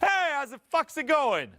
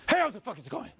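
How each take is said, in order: First: It sounds open, confident and loud. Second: It sounds tense and defensive.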